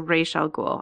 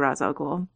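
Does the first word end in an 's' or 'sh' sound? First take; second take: sh; s. First: The first word ends with a 'sh' sound. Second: The first word ends with an 's' sound. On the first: This is the creator's intended pronunciation. "he announced it's Ra'sh" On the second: This is the speaker's habitual pronunciation. "I'm still going to say Ra's al Ghul"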